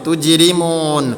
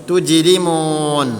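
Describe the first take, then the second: The two takes are said the same way.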